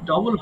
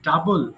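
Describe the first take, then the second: First: The first vowel sounds like 'o'. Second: The first vowel sounds like 'uh'. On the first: The speaker calls it wrong. "এটা কিন্তু ডবল হবে না" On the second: The speaker calls it right.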